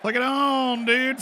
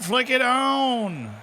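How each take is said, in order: First: High-pitched call of "Flick it on, dude"; high urging. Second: Slow, high "Flick it on" leaning on "it"; drawn-out urging. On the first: Urging someone to switch on. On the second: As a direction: stretch "Flick it on" slowly, leaning on "it". Repeating the urge, drawn out. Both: Acted.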